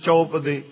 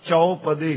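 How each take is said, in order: First: The u sound in the first syllable is reduced. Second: The u sound in the first syllable is full. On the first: The speaker calls it wrong. "ਕਾਹਲੀ ਵਿਚ ਜਦ ਤੁਸੀਂ ਆਮ ਬੋਲਚਾਲ ਵਿਚ ... ਘੱਟ ਧੁਨੀ ਨਾਲ ਉਚਾਰਨ ਕਰਨੇ ਆ ਜਿਵੇਂ" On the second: The speaker calls it right. "ਇੱਥੇ ਊੜੇ ਨੂੰ ਔਂਕੜ ਲੱਗੀ ਹੈ, ਇਹਦਾ ਪਾਠ ਚੌਪਦੇ ਹੀ ਕਰਨਾ ਹੈ"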